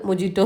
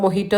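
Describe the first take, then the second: First: The middle consonant is a j sound. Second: The middle consonant is an h sound. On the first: This is how people here usually say it. "നമ്മൾ മൊജീറ്റോ എന്ന് പറയും" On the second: This is the word's proper pronunciation. "അതിൻ്റെ ഉച്ചാരണം മൊഹീറ്റോ തന്നെയാണ്"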